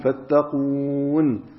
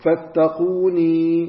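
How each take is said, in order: First: The word ends on n with no vowel. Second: The word ends with a long ee sound. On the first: This is the usual reading when pausing on the word. "نحن قراءتنا في الوقف بالسكون" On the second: This is one school's reading, keeping the ending even in pause. "بالياء في الحالين"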